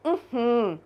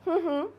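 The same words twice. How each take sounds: First: The hum is said as a refusal. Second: The hum is said as an agreement. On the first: The answer is no. "ये नहीं का है।" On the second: The answer is yes. "मतलब mummy ने हाँ बोल दिया।"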